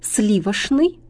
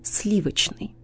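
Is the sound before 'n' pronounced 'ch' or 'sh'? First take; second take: sh; ch. First: The sound before n is pronounced sh. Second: The sound before n is pronounced ch. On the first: The speaker calls it wrong. "ошибка" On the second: The speaker calls it right. "правильно"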